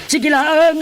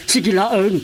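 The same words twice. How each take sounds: First: High, loud urging; rising to a shout; pleading shout. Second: Said in the usual way. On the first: Acted. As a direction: push the words out hard and high. Urging a sinner to confess.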